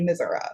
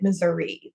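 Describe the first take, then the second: First: It is said the Southern Missouri home way. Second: It is said the general American way.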